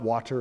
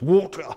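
First: It is said in an American accent. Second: It is said in a British accent. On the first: "It's not water" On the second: "British are weird, the way they say stuff"

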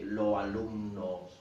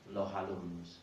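First: The words join with no h sound between them. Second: An h sound comes between the two words. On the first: The speaker calls it wrong. "It's not natural for the speaker to say lo alumnos" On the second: The speaker calls it right. "this H sound creeps in and becomes lo alumnos"

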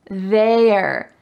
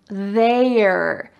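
First: One contracted syllable is said, 'they're'. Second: One contracted syllable is said, 'they're'.

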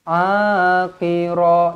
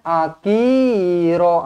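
First: The first vowel is long, 'ki' short. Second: The first vowel is short, 'ki' long. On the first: The speaker calls it right. "ah panjang, ki pendek, ra panjang" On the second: The speaker calls it wrong. "jangan terbalik pula. Jangan akira"

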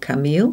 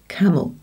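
First: The second vowel is full and strongly stressed. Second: The second vowel is reduced to a weak schwa. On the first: The speaker calls it wrong. "or camille" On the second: The speaker calls it right. "It's the E that is swallowed. It goes camel"

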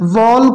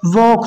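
First: The L sound is pronounced in the word. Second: The L sound is silent in the word. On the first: The speaker calls it wrong. "वॉक नहीं होगा" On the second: The speaker calls it right. "इसमें एल silent है, वॉक होगा"

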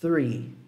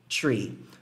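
First: It starts with the tongue between the teeth. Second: It starts with a plain t sound. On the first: The speaker calls it right. "a pontinha da língua entre os dentes e aí assoprando" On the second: The speaker calls it wrong. "E não tree"

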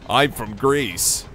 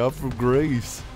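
First: It is said in a general American accent. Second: It is said in a Southern US accent. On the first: "They just default to English with an American accent" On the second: "It'd be funny if it was like a southern accent for Greece"

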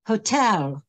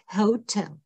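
First: The stress is on the second syllable. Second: The stress is on the first syllable. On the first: The speaker calls it right. "Čili přízvuk je na druhé slabice" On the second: The speaker calls it wrong.

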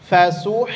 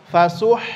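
Both takes have the same delivery.

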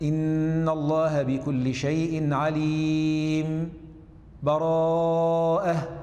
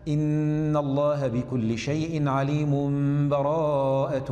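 First: A brief pause comes without taking breath. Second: The words run on with no pause. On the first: "السكت هكذا" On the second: "نبدأ بالوصل هكذا"

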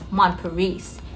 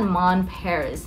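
First: It is said with a French-style accent. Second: It is said with an English-style accent. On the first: The speaker calls it right. "it's Mon Paris" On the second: The speaker calls it wrong. "it's not Mon Paris, ma'am"

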